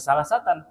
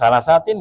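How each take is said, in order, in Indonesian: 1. Akhirannya memakai vokal a sebelum n. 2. Akhirannya memakai vokal i sebelum n. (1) "nggak bisa salah satan" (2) "nggak bisa salah satin"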